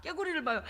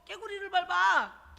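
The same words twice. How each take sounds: First: Said in the usual way. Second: Slow drawl. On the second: Shown as a demonstration. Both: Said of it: "너무 신중하고 뒷걸음을".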